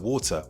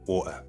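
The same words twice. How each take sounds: First: The middle T is pronounced as a T. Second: The middle T becomes a glottal stop.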